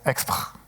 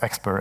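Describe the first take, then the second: First: The word is pronounced with a French accent. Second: The word is pronounced with an English accent. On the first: The speaker calls it wrong. "I will sometimes pronounce it the wrong way" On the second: The speaker calls it right. "it means expr"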